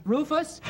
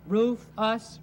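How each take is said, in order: First: Rufus said as one smooth name, rising; blended name. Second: Roof, us said as two separate words with a pause; Roof, us broken into two clue syllables; split syllables. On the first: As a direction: run Roof and us together into Rufus. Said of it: "Oh, your name is Rufus". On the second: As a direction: sound out Roof and us apart, like clues. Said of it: "Second, second syllable". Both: Shown as a demonstration.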